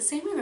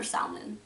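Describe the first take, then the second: First: "salmon" with a long AY, as SAY-min; pronunciation variant. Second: "salmon" with a rounded first vowel, as SAL-mun or SOL-mun; pronunciation variant. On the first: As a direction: say "salmon" with first syllable like "say". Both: Shown as a demonstration. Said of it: "Is it salmon or salmon?".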